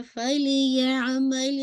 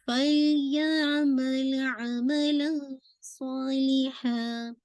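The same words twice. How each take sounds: First: फल या अमल with ल bounced; wrong bouncing recitation. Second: Chanted, फल या अमल slow, ल held smoothly; chanted, recite without bounce; correct chant. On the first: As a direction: show the bounce on फल. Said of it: "ऐसे नहीं पढ़ना है". (ग़लत, फल पर उछाल) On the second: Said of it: "फल यहाँ पे बाउंस नहीं कीजिएगा". (chanted, सही, फल पर बिना उछाल) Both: Shown as a demonstration.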